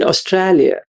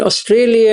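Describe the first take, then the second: First: Attempted Aussie "Australia" with an open middle vowel; Australian accent. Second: Said in the usual way. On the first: Shown as a demonstration. Teacher contrasts two ways of saying it, lightly imitated Australian accent. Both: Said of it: "what's the difference between".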